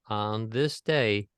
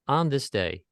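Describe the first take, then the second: First: The first word is unemphasized, with an upswing. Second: The first word is given emphasis.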